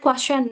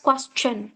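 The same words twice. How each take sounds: First: The middle sound is said without a 'ch' sound. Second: The middle sound is said as a clear 'ch'. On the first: The speaker calls it wrong. "Most of us say that question" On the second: The speaker calls it right. "It's pronounced actually as question"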